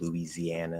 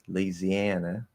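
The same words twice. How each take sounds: First: It is said with a standard pronunciation. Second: It is said with a Southern pronunciation. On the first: "instead of" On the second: "all them Southern belles down there with that influence from French Louisiana"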